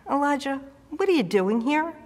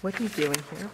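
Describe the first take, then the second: First: Raised, calling out to a hiding man; God's summoning voice, raised pitch. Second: Low, soft mumble off the mic; quietly rehearsing the line while lost; muttered to herself. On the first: Acted. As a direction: call his name from above, then ask. God calls Elijah in cave. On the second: Real, not acted. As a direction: mumble the line to find your place. Muttering to find her place.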